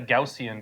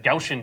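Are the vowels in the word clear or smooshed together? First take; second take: clear; smooshed. First: The vowels are pronounced fully and distinctly. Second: The vowels are run together and reduced. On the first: "I don't call it the Gaussian distribution" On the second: "because I'm lazy and I smoosh my vowels"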